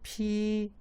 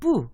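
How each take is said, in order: First: The p is released with a puff of air. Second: The p is released without a puff of air. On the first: "살짝 이제 기음이 있으니까 그래서 피 요런 발음" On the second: "이 스피트의 요, 이 푸가 여러분 보통 이렇게 음, 뿌 이렇게 발음되잖아요"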